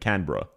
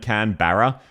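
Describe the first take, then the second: First: The second part is reduced, like 'bruh'. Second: The second part is said as a full 'barra'. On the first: The speaker calls it right. "it's more like can of bruh" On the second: The speaker calls it wrong. "I think I hear ... Can Barra. No"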